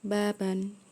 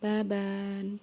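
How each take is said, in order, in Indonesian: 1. Vokal sebelum n akhir dibaca pendek. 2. Vokal sebelum n akhir dibaca panjang. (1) "tapi baban" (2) "bukan baban"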